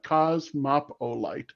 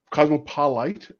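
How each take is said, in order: First: "Cosmopolite" slowly as coz-MOP-oh-lite; corrected pronunciation. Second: "Cosmopolite" split as Cosmo-PO-lite, ending like light; trying a pronunciation. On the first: Host settling on a questioner's username, corrected pronunciation. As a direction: say "Cosmopolite" with a distinct MOP in the middle, slow and falling. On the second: Host attempting a questioner's username, trying a pronunciation. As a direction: say "Cosmopolite" as cosmo plus polite, tentative rise. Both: Real, not acted. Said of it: "or is it Mopolite".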